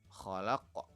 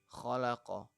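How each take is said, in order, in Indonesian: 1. Kata ini berakhir dengan konsonan qalqalah yang memantul. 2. Kata ini berakhir dengan vokal penuh.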